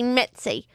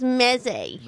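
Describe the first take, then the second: First: The word has a t sound in the middle. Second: The word has no t sound in the middle. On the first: This is the speaker's own everyday pronunciation. "I'd say mezze" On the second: This is a posh pronunciation used by someone else. "He's so posh he leaves out the T from that one"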